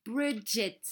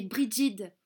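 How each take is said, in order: First: "Bridget" said the English way; English-style "Bridget"; English pronunciation. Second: Said in the usual way. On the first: Shown as a demonstration. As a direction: say "Bridget" with English sounds, not French. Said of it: "des prénoms bizarres".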